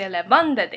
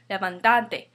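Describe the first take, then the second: First: The stress is on the third-to-last syllable. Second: The stress is on the second-to-last syllable. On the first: The speaker calls it right. "We say levántate" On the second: The speaker calls it wrong. "the stress naturally falls on this A, second to the last"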